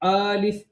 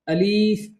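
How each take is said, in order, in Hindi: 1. पहला स्वर लंबा खींचा जाता है। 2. दूसरा स्वर लंबा खींचा जाता है। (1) "ये भी गलत" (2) "ये भी गलत है"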